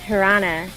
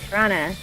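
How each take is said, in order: First: The word is reduced, dropping the middle 't'. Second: The word is reduced, dropping the middle 't'.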